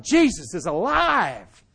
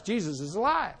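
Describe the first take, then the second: First: Slow, drawn-out proclaiming call; slow retold proclamation; retold shout. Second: Said in the usual way. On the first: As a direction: announce it like big news. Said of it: "I shouted". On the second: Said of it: "telling people in their cars".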